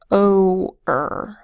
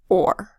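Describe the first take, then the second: First: A long O is followed by a separate er. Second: The vowel and R blend into one syllable. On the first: "if we were to pronounce this with a long O, followed by a er, we'd say o-er" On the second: "the way people really say it, which is just or"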